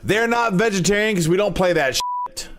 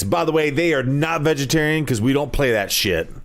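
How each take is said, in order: First: Higher, punchier radio announcer. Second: Radio ad voice. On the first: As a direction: sell it like a cheesy ad. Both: Pretend. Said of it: "radio voice".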